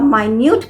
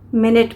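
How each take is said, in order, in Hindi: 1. इसे 'my-newt' की तरह बोला जाता है, लंबे स्वर के साथ। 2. इसे 'minnit' की तरह बोला जाता है, छोटे स्वर के साथ। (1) "और माइन्यूट भी प्रोनाउंस करते हैं" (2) "इसे हम मिनट भी प्रोनाउंस करते हैं"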